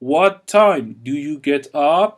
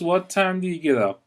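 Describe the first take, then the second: First: "Do you" is said as two full words. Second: "Do you" is blended into one short syllable.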